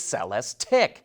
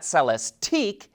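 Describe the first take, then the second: First: The last syllable sounds like 'ick'. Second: The last syllable does not sound like 'ick'. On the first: The speaker calls it right. "it's Celestiq" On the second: The speaker calls it wrong. "It's not Celestique"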